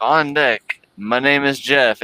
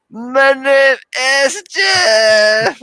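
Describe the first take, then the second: First: Lightly imitated race announcer; mock announcer call, a touch of Channing Tatum. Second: Wild high-pitched mock scream; super crazy. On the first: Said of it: "clicked the announcer button, and it was like". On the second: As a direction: imitate an announcer going berserk, loud and drawn out. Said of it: "going so crazy. He was just like".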